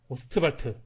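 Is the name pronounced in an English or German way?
German. It is pronounced the German way, like Ostvalt. "독일식 발음으로 오스트발트 이렇게 발음하는 걸로 통일하도록 합시다"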